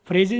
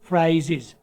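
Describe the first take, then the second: First: The first vowel is a flat 'eh' sound. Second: The first vowel is a gliding 'ay' sound. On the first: The speaker calls it wrong. "फ्रेजेस नहीं पढ़ेंगे" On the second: The speaker calls it right. "थोड़ा सा round करके फ्राइजेस करें"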